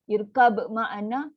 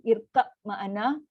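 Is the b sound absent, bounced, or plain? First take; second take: bounced; plain. First: The b is heard with an echoing bounce. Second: A plain b is heard without a bounce. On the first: "dia akan melantun untuk qalqalah" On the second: "Satu dibunyikan ba tanpa melantun"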